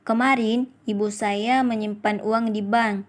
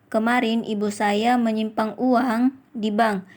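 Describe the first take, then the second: First: The stress is on kemarin. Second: The stress is on uang. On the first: "Pada kalimat pertama mendapatkan tekanan pada kata kemarin" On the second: "Kalimat kelima mendapatkan tekanan pada kata uang"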